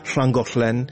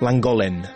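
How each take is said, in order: First: The word begins with a hissing L sound. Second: The word begins with a plain L sound. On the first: A local Welsh speaker said it. The speaker calls it right. "2L произносится «шл»" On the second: An English speaker said it. The speaker calls it wrong. "Они все говорят «ланголен»"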